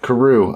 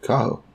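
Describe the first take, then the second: First: "Karoo" said kuh-ROO with an r; corrected name. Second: "Kaho" said KAH-ho with an h; the wrong version, "Kaho" with a breathy h; mispronounced name. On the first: Podcaster accepting the cohost's fix, saying "Karoo". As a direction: settle on "Karoo", echoing the cohost. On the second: Podcaster misnaming the bird, trying "Kaho". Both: Shown as a demonstration. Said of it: "I always fuck that up".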